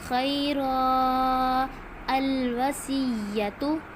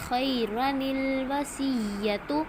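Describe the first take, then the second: First: There is a stop with no linking n sound. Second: The words run together with a linking n sound. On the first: "लेकिन अगर हमने वक्फ किया है" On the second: "अगर हम मिला के पढ़ रहे हैं, वक्फ नहीं कर रहे"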